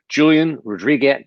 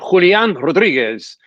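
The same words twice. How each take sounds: First: It is said with an American accent. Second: It is said with a Latin accent.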